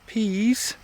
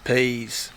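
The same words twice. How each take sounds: First: It is said the way outsiders pronounce it. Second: It is said in the local regional accent. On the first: This is not how people here say it. "down here we don't say peas" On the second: This is how people here say it. "we say peas"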